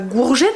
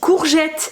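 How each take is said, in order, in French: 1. Le mot commence par un son G sonore. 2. Le mot commence par un son K sourd. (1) "ça se dit pas gourgette" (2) "ça se dit courgette"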